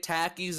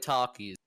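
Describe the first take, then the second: First: It is said the Canadian way, like 'tacky'. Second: It is said the American way, like 'talkie'. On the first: "the Canadian way" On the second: "American way"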